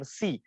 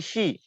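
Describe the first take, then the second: First: The syllable begins with a plain 's' sound. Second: The syllable begins with a hushing 'sh' sound. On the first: The speaker calls it wrong. "Jadi bacanya bukan si" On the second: The speaker calls it right. "tapi shi"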